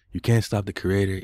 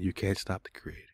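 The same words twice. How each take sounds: First: Much louder, emphatic declaration; defiant. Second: Said in the usual way. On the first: Real, not acted. Man defying the chatbot over his creativity, loudly defiant. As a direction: belt it out in defiance.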